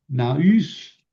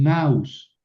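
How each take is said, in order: First: "naus" with the stress on the final U, rising. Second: "naus" as one diphthong, A stressed, falling; stress on strong vowel. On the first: Teacher trying out a Greek noun, "naus" stressed on U. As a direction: say "naus" leaning on the u, voice going up. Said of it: "eh, o, perdón". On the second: Teacher corrects the Greek noun, "naus" stressed on A. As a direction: punch the A in "naus", let the u glide down. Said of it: "pero lo pronuncio en la fuerte". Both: Shown as a demonstration.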